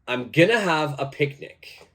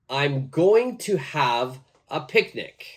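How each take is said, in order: First: "Going to" is reduced to "gonna". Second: "Going to" is said in full.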